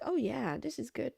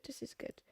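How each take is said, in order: First: Said in the usual way. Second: Whispered echo. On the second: Retold or imitated. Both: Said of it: "The judges were like".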